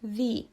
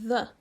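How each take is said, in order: First: The vowel is a long 'ee' sound. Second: The vowel is a short, weak 'uh' sound. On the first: This is the form used before vowel sounds. "dacă precede un cuvânt care începe cu o vocală, se va pronunța the" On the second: This is the form used before consonant sounds. "În limba engleză acesta este the"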